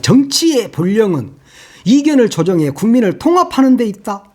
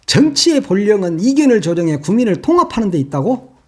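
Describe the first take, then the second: First: Pompous quote. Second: Incredulous rising repeat of the quote; scornful echo. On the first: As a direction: read it like a lofty official statement. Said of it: "그러면서 막". (거창한 척 비꼬며 읽기) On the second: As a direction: throw his words back in disbelief. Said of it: "법학 개론 시간이냐". (어이없다는 듯 되묻기) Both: Retold or imitated.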